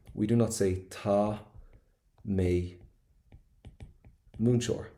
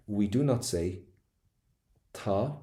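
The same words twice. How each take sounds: First: Said in the usual way. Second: Drawn-out dramatic "we do not say tá"; theatrical stress on "not" and "tá". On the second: Acted. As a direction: overplay the warning, pause before "tá". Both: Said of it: "sorry, that was a bit dramatic there".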